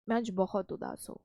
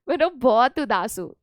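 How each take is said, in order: First: It is said in a sad, downcast tone. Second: It is said laughing, in a cheerful tone.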